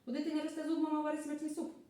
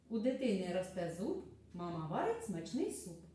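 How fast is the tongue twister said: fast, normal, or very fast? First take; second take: very fast; normal. First: It is said at a very fast pace. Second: It is said at a normal, unhurried pace. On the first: "А тепер ще швидше" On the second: "Ось послухайте скоромовку"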